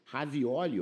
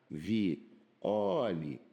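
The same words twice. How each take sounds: First: Said in the usual way. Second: "Ravioli" broken very slowly into ra, vi, oli; long pauses inside "Ravioli", O drawn out; syllable by syllable. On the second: Shown as a demonstration. Teacher showing students how "Ravioli" divides, syllable by syllable. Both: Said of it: "ó, olha que maneiro".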